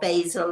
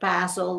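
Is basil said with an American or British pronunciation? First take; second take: American; British. First: The word is said in an American way. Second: The word is said in a British way.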